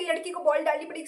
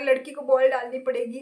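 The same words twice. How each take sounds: First: Quick sarcastic echo of the taunt; mocking repeat. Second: Mild mock taunt, said as a jibe; lightly voiced cocky bowler sneering at a girl batting. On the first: Retorting to the bowler by echoing his taunt, fast and sarcastic. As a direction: throw his words back at him, fast and scornful. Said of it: "ये कौन सी बात है". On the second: Mimicking the cocky bowler who taunts her, mild mock jibe. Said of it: "वो बहुत ही सुना के बोल रहा है".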